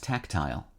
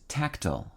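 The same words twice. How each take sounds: First: Tactile as TAK-tyle; alternative pronunciation. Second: Tactile as TAK-tuhl; first pronunciation. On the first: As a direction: say tactile with its ending like "tile". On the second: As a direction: say tactile with a reduced ending, rhyming with "fractal". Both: Shown as a demonstration. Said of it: "also pronounced tactile".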